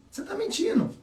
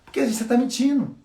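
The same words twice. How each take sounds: First: Much higher, teasing singsong accusation; teasing you're lying; mock accusation. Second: Said in the usual way. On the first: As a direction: catch them out in a playful high voice. Imitating expert reading a liar.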